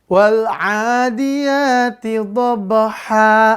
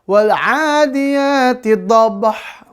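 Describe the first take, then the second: First: The last word ends with a two-count long a. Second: The last word ends abruptly on a bare h. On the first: The speaker calls it right. "bacaan panjang ditambah alif, lalu dihilangkan tanwinnya" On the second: The speaker calls it wrong. "jangan dibaca ... salah ya"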